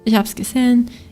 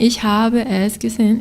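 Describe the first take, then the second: First: 'Habe es' is shortened into one syllable. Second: Every word is said in full, unreduced. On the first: "you're going to hear this all the time" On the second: "instead of saying"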